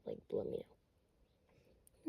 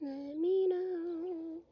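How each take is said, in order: First: Said in the usual way. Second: Slow drawn out. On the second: Shown as a demonstration. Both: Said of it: "I'm being so straight up".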